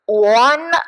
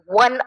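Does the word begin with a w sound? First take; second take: no; yes. First: The word begins without a w sound. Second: The word begins with a w sound. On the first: The speaker calls it wrong. "वन असं आपण करत नाही" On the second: The speaker calls it right. "वन असं करतो, व हा उच्चार पुढे येतो"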